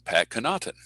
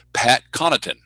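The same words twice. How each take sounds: First: Connaughton stressed on the second syllable; kuh-NAUGHT-un for Connaughton, middle beat strong; mistaken name stress. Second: Connaughton stressed on the first syllable; CON-uh-tun for Connaughton, first beat strong; correct name stress. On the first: Announcer showing his old mistake, Connaughton with second-syllable stress. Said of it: "I was always saying". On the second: Announcer giving an example, Connaughton with first-syllable stress. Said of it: "Here's an example". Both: Shown as a demonstration.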